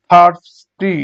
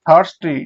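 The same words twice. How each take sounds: First: thirsty split, first beat loud; syllable by syllable. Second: Said in the usual way. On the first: Shown as a demonstration. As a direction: pause before the final ti of thirsty. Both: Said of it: "syllable অনুযায়ী ভাগ করি".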